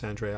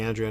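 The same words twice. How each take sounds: First: Andrea said as an-DRAY-uh; corrected pronunciation. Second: Andrea said as AN-dree-uh; host's own pronunciation. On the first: Host correcting himself for the guest, Andrea as an-DRAY-uh. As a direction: move the stress in Andrea onto a DRAY middle syllable. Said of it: "and it's Andrea". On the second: Host apologizing to the guest, Andrea as AN-dree-uh. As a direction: stress the first syllable of Andrea, with DREE after it. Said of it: "if I'm saying Andrea". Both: Shown as a demonstration.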